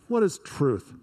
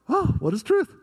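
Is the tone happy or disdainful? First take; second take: disdainful; happy. First: It sounds disdainful and dismissive. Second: It sounds happy and curious.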